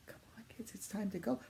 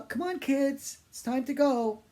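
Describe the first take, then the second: First: Whisper. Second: Put-on high, loud call to the kids; a mother calling her kids to leave; yelled out. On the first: Retold or imitated. Same call repeated as echo. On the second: Mother yelling to her kids to leave, loud high call. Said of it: "She just yelled out".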